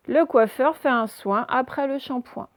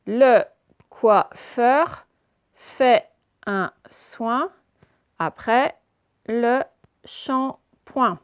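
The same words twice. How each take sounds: First: Said in the usual way. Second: "Le coiffeur fait un soin après le shampoing" in slow, separated pieces; very slow, emphatic decoding of "Le coiffeur fait un soin après le shampoing"; syllable-by-syllable reading. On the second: Shown as a demonstration. Teacher models syllable-by-syllable reading.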